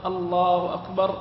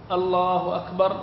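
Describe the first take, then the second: No difference in how they are said.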